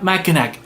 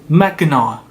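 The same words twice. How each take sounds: First: The name ends with a final k sound. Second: The name ends without a final k sound. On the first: The speaker calls it wrong. "not Mackinac" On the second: The speaker calls it right. "It Mackinac, C at the end is useless"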